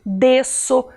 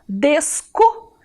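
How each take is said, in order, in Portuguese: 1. A consoante do meio tem som de S. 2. A consoante do meio tem som de K. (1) "eu preciso do cedilha. C, cedilha. Sa, so, su, para poder escrever desço" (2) "Se eu não colocar o cedilha, eu tenho que ler a palavra assim"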